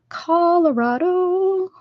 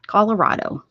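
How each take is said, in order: First: Sung, Colorado drawn out very high and slow; sung, stretch out "Colorado" high and dreamy. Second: Said in the usual way. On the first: Shown as a demonstration.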